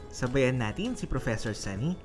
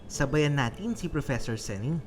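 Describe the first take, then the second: No difference in how they are said.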